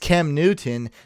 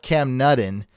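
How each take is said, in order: First: The first syllable of the surname sounds like 'new'. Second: The first syllable of the surname sounds like 'nut'. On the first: The speaker calls it right. "It's it's Cam Newton" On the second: The speaker calls it wrong. "not Cam Nutton. They say I say Cam Nutton"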